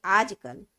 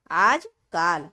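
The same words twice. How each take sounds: First: Said in the usual way. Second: आजकाल with a long आ in the middle, said loudly as the error; आजकाल stretched to aaj-kaal; wrong long vowel. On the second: Shown as a demonstration. Teacher sounds out the misspelling आजकाल for pupils. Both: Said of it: "तो आजकाल नहीं होगा".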